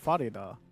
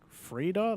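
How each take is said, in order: First: A vowel is sounded between the F and R. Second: No vowel is sounded between the F and R. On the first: The speaker calls it right. "I could understand Farida" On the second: The speaker calls it wrong. "like it's a silent A"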